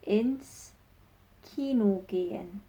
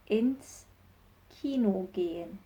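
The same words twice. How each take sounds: The two takes are said the same way.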